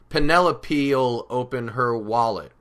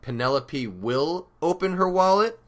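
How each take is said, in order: First: The word 'will' is contracted onto the name. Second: The word 'will' is said in full. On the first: This is the casual, conversational style. "This is more like how we would say it in spoken conversation" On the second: This is the more formal, written style. "In a textbook, you'd be more likely to hear Penelope will"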